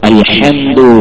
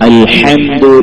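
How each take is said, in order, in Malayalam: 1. h തൊണ്ടയുടെ നടുവിൽ ആഴത്തിലാണ് ഉണ്ടാകുന്നത്. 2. h തൊണ്ടയുടെ നടുവിൽ ആഴത്തിലാണ് ഉണ്ടാകുന്നത്.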